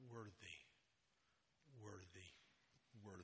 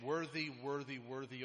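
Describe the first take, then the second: First: The words are said softly. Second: The words are shouted loudly. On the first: It expresses humble reverence. "I want to fall to my knees and say it differently" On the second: It expresses joyful celebration. "part of me wants to shout loudly as we can"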